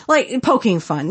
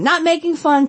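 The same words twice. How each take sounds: First: Said in the usual way. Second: "making" lifted high in pitch; stress on making. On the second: Shown as a demonstration. Correcting herself to the audience, stressing "making". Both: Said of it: "Not making fun, poking fun".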